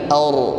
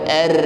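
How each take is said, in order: First: The r sound is full and heavy. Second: The r sound is thin and light. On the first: The speaker calls it right. "tetapi ar, suaranya menghadap ke langit-langit, naik" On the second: The speaker calls it wrong. "bukan ar"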